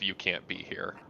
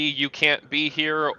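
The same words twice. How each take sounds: First: It is said in an aggressive, hostile way. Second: It is said in a panicky, frightened way. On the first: "or aggressive" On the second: "seeming like panicky"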